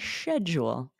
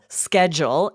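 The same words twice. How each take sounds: First: It starts without a hard k sound. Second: It starts with a hard k sound. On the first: "in British English, they say schedule" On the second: "in the U S with that hard "k,""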